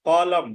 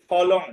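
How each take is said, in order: First: ফলম closing on m, "phalam"; correct pronunciation. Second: ফলং ending in "ng", "phalong"; as written. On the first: Teacher gives the rule's result, correct pronunciation. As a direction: punch ফলম, lips shut on final m. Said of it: "তাহলে উচ্চারণ হবে". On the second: Teacher reads the written word, anusvara as ng. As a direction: say ফলং with final "ng". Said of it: "শব্দের মধ্যে থাকে". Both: Shown as a demonstration.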